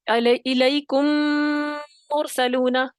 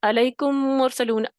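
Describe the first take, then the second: First: The nasal m is stretched out too long. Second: The nasal m is held very briefly. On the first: "इतना लंबा कर लें, मुबालगा कर लें" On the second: "जल्दी से हल्का सा करके आगे निकल जाते हैं।"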